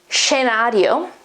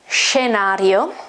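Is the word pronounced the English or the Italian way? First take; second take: Italian; Italian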